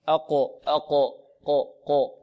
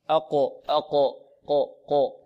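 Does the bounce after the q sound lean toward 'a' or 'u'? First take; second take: u; u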